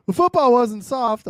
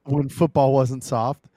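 First: Mock tough shout. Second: Said in the usual way. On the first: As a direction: bellow it like an old-school tough guy. Repeats phrase, second time louder.

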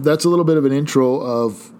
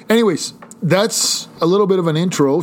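First: Said in the usual way. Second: Higher, slightly raised voice; mild yell. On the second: Real, not acted. Host jumping back to the intro, mild yell. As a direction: burst back in with an accidental little yell. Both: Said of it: "Sorry, I just yelled".

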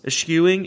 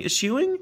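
First: ESCHEWING with a hard sk, "es-SKEW-ing"; trying a pronunciation. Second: ESCHEWING with a soft sh, "ih-SHOE-ing", rising high; trying alternate pronunciation. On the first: Host unsure of a word in his intro, questioning sk pronunciation. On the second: Host second-guessing a word in his intro, questioning sh pronunciation. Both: Shown as a demonstration. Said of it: "How do you pronounce that?".

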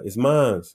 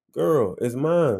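First: Said in the usual way. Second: Slow, higher, insistent retort. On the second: Retold or imitated. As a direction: draw it out, mildly exasperated. Repeats answer to disbelieving friend.

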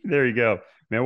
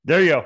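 First: Excited. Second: Big happy cheer, louder and higher; loud excited cheer. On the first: Host cheers guest's answer. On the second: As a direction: call it out with a laugh in the voice. Host cheers the Roll Tide. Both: Real, not acted.

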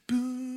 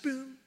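First: High boom left to ring out; sustained note. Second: Brief high boom, softer; short-lived note. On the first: Showing the sustain pedal, high ringing boom. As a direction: imitate a piano note held by the pedal. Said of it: "It carries out". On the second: Showing a note without sustain, brief high boom. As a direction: imitate a quick staccato piano note. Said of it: "short-lived". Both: Shown as a demonstration.

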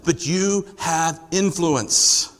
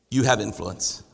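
First: Very slow, "you" weighted, each word spaced out; slow stressed you. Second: "have" leaned on, softer and lower, almost confided; softer stress on have. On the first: Pastor assuring the doubtful listener, slowly stressing "you". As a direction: lay it down slowly, leaning on "you" in "but you have influence.". Pastor repeats point to congregation. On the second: Pastor telling each listener they matter, with hushed stress on "have". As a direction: press gently on "have" in "you have influence.". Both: Real, not acted.

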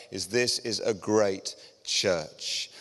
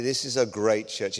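First: "this is a great church" slowed, leaning hard on "this"; emphatic slow affirmation. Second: Said in the usual way. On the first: Real, not acted. Preacher assuring the visitors, stressing "this" slowly. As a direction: press "this" slowly, firmly.

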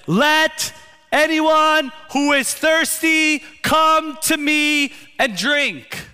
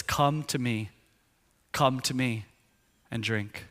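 First: High, loud, drawn-out cry to a crowd; top-of-voice shout. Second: Soft, hushed call to come; quiet invitation. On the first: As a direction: shout it slowly so everyone hears, pitched way up. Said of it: "in such a loud way at the top of his voice". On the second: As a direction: say it softly into a quiet moment, trailing lower. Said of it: "it's the quiet moment". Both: Retold or imitated.

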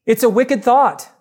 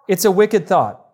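First: "It's a wicked thought" lifted higher, pressing on "wicked"; first take, pitched up to hit "wicked" hard; emphatic. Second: Said in the usual way. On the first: Shown as a demonstration. Preacher warning his congregation, lands "wicked" emphatically.

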